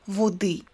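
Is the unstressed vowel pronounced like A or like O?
O. The unstressed vowel sounds like O. This is the Northern dialect form. "in Northern dialects it would be"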